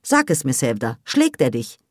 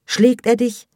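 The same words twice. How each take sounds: First: Firm maternal insistence; insistent. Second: High, loud probing question; alarmed demand. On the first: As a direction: keep pushing for an answer. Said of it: "beharrte Emine". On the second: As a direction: climax of an interrogation, pitched up. Peak of mother's questioning. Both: A narrator's reading.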